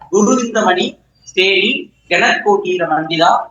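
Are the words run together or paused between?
paused. The words are said with pauses between them. "இப்ப நிறுத்தி சொல்றேன்"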